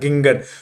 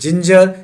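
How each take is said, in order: First: Both g sounds are hard, as in go. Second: Both g sounds are soft, as in jam. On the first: The speaker calls it wrong. "जब नहीं जानता था मैं भी बोलता था गिंगर" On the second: The speaker calls it right. "ज होता है"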